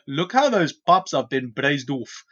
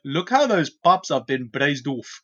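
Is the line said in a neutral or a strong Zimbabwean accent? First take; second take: Zimbabwean; Zimbabwean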